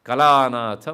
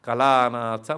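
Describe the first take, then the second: No difference in how they are said.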